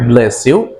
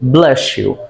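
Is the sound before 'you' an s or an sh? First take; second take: s; sh. First: The s before 'you' is kept separate. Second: The s and 'you' blend into sh. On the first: The speaker calls it wrong. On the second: The speaker calls it right. "these sounds become like sh sound"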